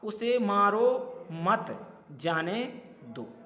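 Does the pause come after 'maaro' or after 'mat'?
after mat. The pause comes after 'mat', meaning don't hit.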